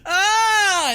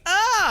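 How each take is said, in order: First: It is a firm, resolute yell. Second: It is a panicked, screaming yell.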